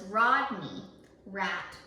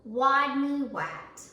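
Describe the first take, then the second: First: The R sounds are said as real R sounds. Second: The R sounds are said as W sounds. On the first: This is the name as it really is. The speaker calls it right. "His real name was Rodney Rat" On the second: The character cannot pronounce his R's. The speaker calls it wrong. "when he says his name, he says it Wadney"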